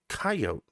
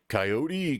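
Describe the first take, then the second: First: The final e is silent. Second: The final e is sounded as a vowel. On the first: The speaker calls it right. "there is such a concept as the silent E. So it's coyote" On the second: The speaker calls it wrong. "you know, just wrong"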